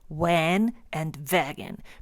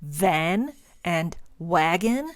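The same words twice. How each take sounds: First: Van starts with W, wagon starts with V. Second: Van starts with V, wagon starts with W. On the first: "they say van and wagon because it's almost reversed" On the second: "if you ask a German to pronounce van and wagon"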